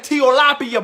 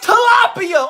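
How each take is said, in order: First: Put-on "tilapia" said slowly and carelessly, as in the kid's own version; plain slow "tilapia", the version being corrected; mispronounced tilapia. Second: "tilapia" shouted much higher, slow, in a put-on voice; over-the-top high, slow "tilapia" as a correction; corrected pronunciation. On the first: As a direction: drag out "tilapia" like the wrong take. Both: Shown as a demonstration. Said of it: "it's pronounced tilapia".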